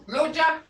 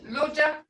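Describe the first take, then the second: No difference in how they are said.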